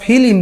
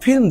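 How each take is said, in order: First: A vowel separates the last two consonants. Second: The last two consonants are said together. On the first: This is how village people say it. "গ্রামের কপত কপিতে কপতি যখন ওই cinema হলে যায় তখন বলে" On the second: This is how city people say it. "শহরের কপত কপতিরা যখন সিনেমা দেখতে যায় তখন একজন আরেকজনকে বলে"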